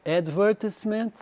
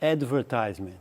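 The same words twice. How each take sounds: First: Advertisement stressed on the second syllable, "adVERtisement"; British advertisement. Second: Advertisement stressed on the third syllable, with a long i, "adverTIZEment"; American advertisement. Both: Shown as a demonstration. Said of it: "diferença de som".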